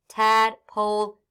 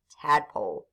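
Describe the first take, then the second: First: Tadpole stretched slowly, syllable by syllable; slow blend. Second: Said in the usual way. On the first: Shown as a demonstration. Teacher modelling Tadpole for young readers, slow and clear. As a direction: draw out Tadpole slowly, each part clear. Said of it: "blended word said slowly". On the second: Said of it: "quick normal second take".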